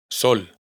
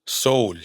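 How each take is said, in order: First: Said in the usual way. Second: "sol" with a long gliding "ou" vowel; long Icelandic ó. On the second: Shown as a demonstration. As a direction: stretch "sol" out as "soul". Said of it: "O con tilde larga".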